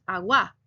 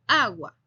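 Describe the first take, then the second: First: "agua" said wrongly, weight moved off the first A, as "agúa"; deliberately incorrect "agua"; wrong stress. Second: "agua" with the first A stressed and a little louder, A-gua; teacher's correct model of "agua". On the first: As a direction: demonstrate the mistaken "agua" with a stressed u. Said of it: "nosotros no decimos agua". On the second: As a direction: lean on the opening A of "agua". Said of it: "sino agua". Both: Shown as a demonstration.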